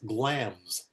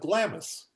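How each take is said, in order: First: The name is said with one syllable. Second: The name is said with two syllables. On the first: The speaker calls it right. "The I is in there, you don't pronounce it" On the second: The speaker calls it wrong. "That's how my English teacher pronounced it... and it's totally wrong"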